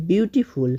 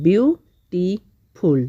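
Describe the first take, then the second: First: Said in the usual way. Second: beautiful slowly split as বিউ, টি, ফুল; beautiful broken up with a pause after each part; syllable by syllable. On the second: Shown as a demonstration. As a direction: stretch beautiful into three separate syllables. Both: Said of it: "syllable ভাগ করে করে পড়লাম".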